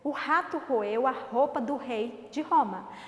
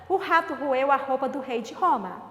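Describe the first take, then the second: First: The sentence is read at a slower pace. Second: The sentence is read at a faster pace. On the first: "Vamos ler comigo?" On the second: "Vamos tentar ler mais rápido"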